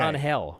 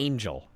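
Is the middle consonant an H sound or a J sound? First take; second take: H sound; J sound. First: The middle consonant is a breathy H sound. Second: The middle consonant is a J sound. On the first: The speaker calls it right. "Why is he not" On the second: The speaker calls it wrong. "That's not how you pronounce it"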